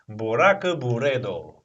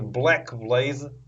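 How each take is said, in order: First: Japanese-style pronunciation with extra vowels inserted. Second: Plain English pronunciation without added vowels.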